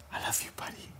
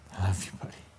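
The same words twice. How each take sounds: First: Unvoiced whisper, very soft. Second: Said in the usual way. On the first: Pastor praying for Grant, whispered. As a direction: breathe it without voice. Repeated line, first take whispered.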